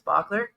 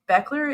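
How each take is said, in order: First: The middle consonant is a rough throaty sound. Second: The middle consonant is a plain hard k. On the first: This is closer to how the player herself says it. "we were recruiting her as Bachler. ... The C H is a little tougher" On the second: This is the anglicized form the player asked staff to use. "Beckler is how she told our our staff to say it"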